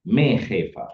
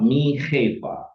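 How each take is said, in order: First: The first word has an 'eh' vowel. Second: The first word has an 'ee' vowel. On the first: The speaker calls it right. "tapi me" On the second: The speaker calls it wrong. "bukan mi, tapi me"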